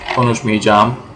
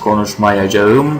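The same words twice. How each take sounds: First: The middle syllables merge into a long i. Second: Every syllable is pronounced in full. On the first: This is how it is said in everyday speech. "in spoken language, ... this whole ayar becomes a long ı" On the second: This is the standard written form. "Normally the standard language is this"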